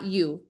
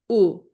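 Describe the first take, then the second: First: The vowel is said the English way. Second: The vowel is said the Spanish way. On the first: The speaker calls it wrong. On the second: The speaker calls it right.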